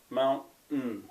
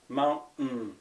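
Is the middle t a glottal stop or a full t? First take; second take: glottal stop; glottal stop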